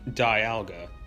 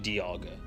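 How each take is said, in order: First: The name begins like the word 'dial'. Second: The name does not begin like 'dial'. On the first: The speaker calls it wrong. "you think it would be Dialga" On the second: The speaker calls it right. "but it's actually Dialga"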